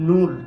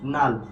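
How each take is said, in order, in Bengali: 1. এই স্বরধ্বনিটি একটি গোলাকার 'oo' উচ্চারণ। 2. এই স্বরধ্বনিটি একটি খোলা 'uh' উচ্চারণ। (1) "এটা আমরা নরমাল উচ্চারণ করতাম কি বলতো?" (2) "কিন্তু এটার উচ্চারণ কি হবে বলতো?"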